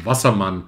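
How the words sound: The name is pronounced with German sounds. "as we would say in German"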